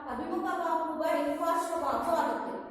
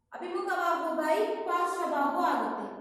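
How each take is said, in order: The two takes are said the same way.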